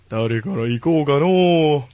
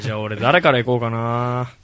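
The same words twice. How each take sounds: First: Slow, lightly voiced old man musing; mock old man. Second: Said in the usual way. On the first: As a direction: drag it out like a playful old grandpa. Playful old-man wording after plain take.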